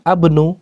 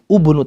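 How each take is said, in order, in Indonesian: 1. Kata ini dimulai dengan vokal a. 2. Kata ini dimulai dengan vokal u. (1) "bukan abnu" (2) "bukan ubnu"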